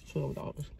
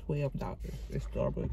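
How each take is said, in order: First: "Twelve dollars" whispered in disbelief; whispered repeat. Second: Said in the usual way. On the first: Real, not acted.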